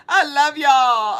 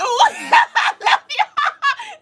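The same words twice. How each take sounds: First: Said in the usual way. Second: Very high, very slow, laughing shout of love; laughing squeal. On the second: Real, not acted. Repeats thanks, now squealing.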